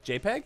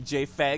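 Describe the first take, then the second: First: The middle sound is a P. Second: The middle sound is an F.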